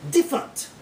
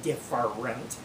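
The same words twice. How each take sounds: First: "Different" squeezed into two syllables; syllable dropped. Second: "different" in three full syllables; all syllables pronounced. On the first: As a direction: skip the middle syllable of "Different". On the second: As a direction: sound out every syllable of "different". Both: Shown as a demonstration. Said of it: "You don't need to say different".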